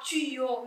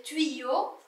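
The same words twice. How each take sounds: First: Tuyau said "tu-yo", with a plain u in the first syllable; wrong pronunciation. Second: Tuyau said "tui-yo", with a "ui" glide; correct pronunciation. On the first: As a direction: say tuyau as "tu-yo", without the "ui" glide. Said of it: "on lit pas tuyau". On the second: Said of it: "mais tuyau". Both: Shown as a demonstration.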